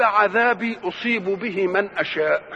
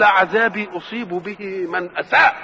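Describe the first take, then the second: First: أشاء said with a clear sh sound, slow and measured; correct reading with shin. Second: أساء said with a plain s instead of sh, slow, with a laugh; mock the misreading أساء with s; misreading with sin. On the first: Retold or imitated. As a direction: recite أشاء with shin, slowly. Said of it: "هي بالشين". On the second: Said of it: "ما جابهاش بالشين".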